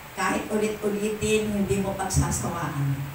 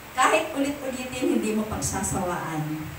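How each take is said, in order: No difference in how they are said.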